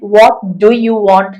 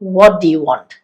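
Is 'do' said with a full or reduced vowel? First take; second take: full; reduced. First: The word 'do' is long and full. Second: The word 'do' is short and reduced. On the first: The speaker calls it wrong. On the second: The speaker calls it right.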